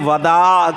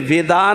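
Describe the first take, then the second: First: The first syllable has an a vowel. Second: The first syllable has an i vowel. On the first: The speaker calls it right. "अरबी में वदा का लफ्ज़ आता है" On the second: The speaker calls it wrong. "विदा कहते हैं लेकिन विदा नहीं है"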